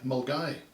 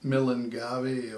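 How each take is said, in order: First: It is said shortly, with two syllables. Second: Every letter is sounded, giving four syllables. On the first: The speaker calls it right. "It's actually said as Mulgai" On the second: The speaker calls it wrong. "if you try and pronounce that, you probably come up with Millingavi"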